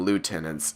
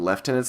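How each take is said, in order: First: The first syllable sounds like 'loo'. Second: The first syllable sounds like 'lef'. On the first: This is the speaker's usual American way. "I've always called them lieutenants" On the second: This is how the game's characters say it. "they were just being stupid by calling them lieutenants"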